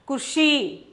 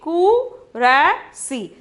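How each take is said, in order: First: No vowel is sounded between r and s. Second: A full vowel is sounded between r and s. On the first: This is how the word is actually spoken. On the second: This is how the word is spelled.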